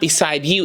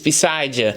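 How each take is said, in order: First: The D and the Y are said separately. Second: The D and Y merge into a J sound. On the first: "It's not beside you" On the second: "So it's a J in there"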